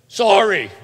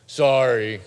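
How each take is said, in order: First: Put-on loud, high, exasperated kid's sorry; insincere shouted apology. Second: Grudging, forced sorry, louder than usual; insincere apology. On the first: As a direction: blurt out a sorry you don't mean. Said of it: "That's not meaning it". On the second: Acted. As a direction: apologize without meaning it, like a scolded kid. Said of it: "say it like you mean it".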